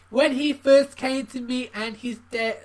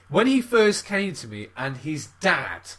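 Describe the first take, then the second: First: It is read in a put-on character voice. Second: It is read in a normal, natural voice. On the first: "Should I do a voice?" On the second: "I'm going to read a normal voice"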